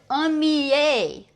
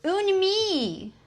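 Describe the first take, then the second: First: The word ends with a clear L sound. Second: The word ends without any L sound. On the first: The speaker calls it right. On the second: The speaker calls it wrong.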